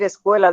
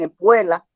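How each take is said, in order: First: The word keeps its usual k sound. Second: Another consonant replaces the k sound. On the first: This is the intended word. The speaker calls it right. "por decir escuela" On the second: This is how some children say it. The speaker calls it wrong. "dicen escuela, pronuncian la C por la P o la P por la C"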